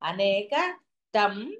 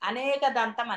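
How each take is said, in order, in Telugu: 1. చివరి పదాన్ని ఒక చిన్న విరామం వేరు చేస్తుంది. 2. మాటలు ఎటువంటి విరామం లేకుండా కలిసిపోయాయి. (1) "ఒక గ్యాప్ ఇచ్చి దంతం అనకూడదు" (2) "అనేక దంతం అనేస్తారు"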